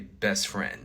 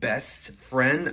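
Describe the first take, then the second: First: The T after the S is weakened. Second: The T after the S is fully said. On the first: "I might say best friend" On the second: "instead of best friend"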